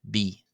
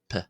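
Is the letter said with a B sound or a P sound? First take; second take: B; P. First: The letter is said with a voiced b sound. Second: The letter is said with a voiceless p sound. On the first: This follows the older reconstructed pronunciation. "in the old Boheric pronunciation ... it is pronounced as B" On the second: This follows the more modern pronunciation. "instead of P"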